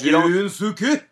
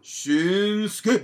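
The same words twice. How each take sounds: First: The middle u sound is clearly pronounced. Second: The middle u sound is dropped. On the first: The speaker calls it wrong. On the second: The speaker calls it right.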